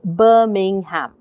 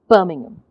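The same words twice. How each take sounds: First: Said slowly with every syllable clearly pronounced. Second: Said with stress and the unstressed syllables swallowed. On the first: "if I said that slowly, if I said that without the stress" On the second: "because English is a stressed down language, you would say"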